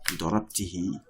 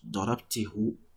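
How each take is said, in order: First: The word ends with a 'hi' sound. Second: The word ends with a 'hu' sound. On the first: The speaker calls it right. "So you say what?" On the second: The speaker calls it wrong. "it will make pronunciation difficult"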